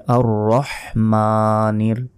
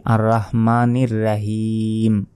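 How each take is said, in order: First: Slow "আর রহমানির" with short throaty রহ; correct pronunciation. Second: "রাহিম" with long রা, a bit slow; wrong pronunciation. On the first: Teacher showing the right way, slow throaty "রহমানির". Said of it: "বলতে হবে". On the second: Teacher showing viewers the mistake, "রাহিম" with long রা. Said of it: "এটা ভুল". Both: Shown as a demonstration.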